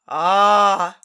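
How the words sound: It is said in a growly monster voice.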